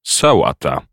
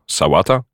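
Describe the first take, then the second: First: Playful. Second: Said in the usual way. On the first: Acted. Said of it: "z figlarnym uśmieszkiem".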